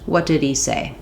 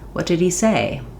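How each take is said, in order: First: The pitch simply falls on the last word. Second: The pitch rises then falls on the last word. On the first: "Or just" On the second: "I might rise and fall a little on say"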